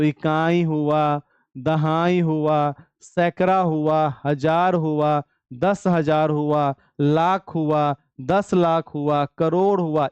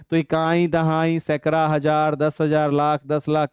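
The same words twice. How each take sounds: First: Slow, deliberate dictation of place names; like a teacher reading aloud for notes; slow counting out. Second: Said in the usual way. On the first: Shown as a demonstration. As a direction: spell each place out slowly for the class. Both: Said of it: "कैसे पढ़ेंगे?".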